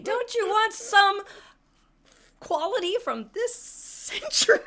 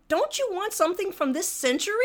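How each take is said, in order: First: Famous line. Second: Pointed jab. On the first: Shown as a demonstration. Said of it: "It was my famous line". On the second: Retold or imitated. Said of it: "but I said".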